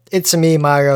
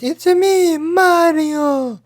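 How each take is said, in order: First: Said in the usual way. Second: Very high cartoon plumber squeal; Mario impression. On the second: Podcaster showing how the game character goes, high Mario impression. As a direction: squeak it out and hold the last word. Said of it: "from Super Mario, where he goes".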